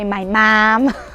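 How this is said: It is said with a strong Chicago accent. "she'll say my mom"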